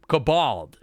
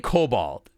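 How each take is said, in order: First: The second syllable is stressed very hard. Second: The stress is on the first syllable. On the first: This imitates how another person says it. "C D hits the bold so hard. He's like" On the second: This is the speaker's own usual pronunciation. "I say Cobalt"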